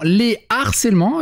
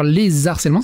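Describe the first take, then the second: First: No z sound links les to the noun. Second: A z sound links les to the noun. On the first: The speaker calls it right. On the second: The speaker calls it wrong.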